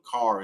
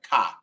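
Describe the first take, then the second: First: The final R sound is pronounced. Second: The final R sound is dropped.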